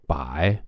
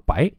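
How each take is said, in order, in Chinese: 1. 这个音节是低降的第三声。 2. 这个音节是升的第二声。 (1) "从这个3 声变2 声" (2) "它变成了白"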